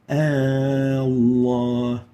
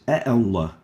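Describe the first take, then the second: First: The opening vowel is drawn out into one long vowel. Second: A short separate vowel comes before the word. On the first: The speaker calls it right. "we pronounce it Allah ... lengthened, given a mad" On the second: The speaker calls it wrong. "we don't pronounce it like this"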